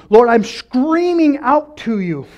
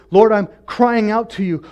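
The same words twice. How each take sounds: First: High, loud, drawn-out cry; acted scream, stretched and raised; mock scream. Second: Raised prayerful cry; mildly acted cry to God. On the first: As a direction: scream it out slowly to God. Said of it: "it literally means scream". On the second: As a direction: cry out to the Lord, held back from screaming. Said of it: "uses the word cry".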